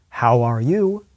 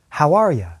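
First: The word 'you' is said fully and clearly. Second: The word 'you' is reduced to 'ya'. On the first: "English speakers pronounce how very clearly and then change the pronunciation of the following words" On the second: "Becomes how are ya?"

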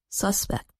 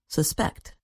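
First: The stress is on the first syllable. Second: The stress is on the second syllable.

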